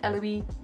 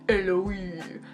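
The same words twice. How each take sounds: First: The name is said with a French pronunciation. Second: The name is said with a Japanese pronunciation. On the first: "because I think it's like French" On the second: "in the Japanese, it's like"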